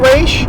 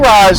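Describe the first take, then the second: First: The name ends with an 'sh' sound. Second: The name ends with an 's' sound. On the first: This is the pronunciation the creator uses. The speaker calls it right. "I think it's supposed to be Raish" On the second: This is the speaker's habitual pronunciation. The speaker calls it wrong. "I say Ra's because of Batman Begins"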